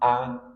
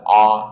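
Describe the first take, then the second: First: The sound is narrow and light. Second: The sound is opened wide and heavy. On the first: The speaker calls it right. "Dia huruf tipis" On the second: The speaker calls it wrong. "jangan terlalu lebar dalam mengucapkan hamzah. A, nanti dia menjadi tebal"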